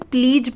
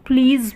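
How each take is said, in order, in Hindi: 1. शब्द का अंत j ध्वनि से होता है। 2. शब्द का अंत z ध्वनि से होता है। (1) "बहुत से लोग इसे प्लीज पढ़ते हैं, जो कि गलत है" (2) "इसके नीचे बिंदी है तो ये ज़ बन गया है"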